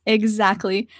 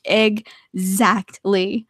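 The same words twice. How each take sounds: First: Said in the usual way. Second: "Exactly" very slow, broken into separate syllables; drawn-out emphatic agreement. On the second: Real, not acted. Agreeing about everything at arm's reach, "Exactly" slowly split up.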